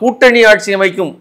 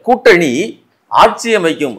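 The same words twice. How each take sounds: First: The phrase runs on without a pause. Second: There is a pause after the first word. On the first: A shared coalition government will be formed. "அர்த்தம் இல்ல" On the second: The alliance will form the government. "Pass பண்ணி"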